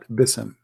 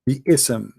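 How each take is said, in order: First: The word runs together with no break. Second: A break separates 'bi' from 'ism'. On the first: The speaker calls it wrong. "they take that letter ... to make it easier to pronounce" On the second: The speaker calls it right. "We have bi'ism"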